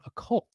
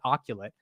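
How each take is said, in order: First: The word is said with two syllables. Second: The word is said with three syllables. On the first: The speaker calls it right. "oh, it's called a cult" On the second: The speaker calls it wrong. "I pronounced it oculate"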